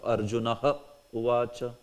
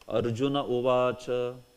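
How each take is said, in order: First: Arjuna is followed by a 'ha' sound before uvacha. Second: Arjuna runs into uvacha with no 'ha' sound. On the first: The sandhi has been broken. The speaker calls it wrong. "instead of Arjunaha uvacha" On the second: The sandhi has been applied. The speaker calls it right. "You will say Arjuna uvacha"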